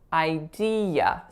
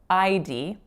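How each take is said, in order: First: The word is said with three syllables. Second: The word is said with two syllables. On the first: The speaker calls it right. "there's three syllables in this word" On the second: The speaker calls it wrong. "So I'm saying I D"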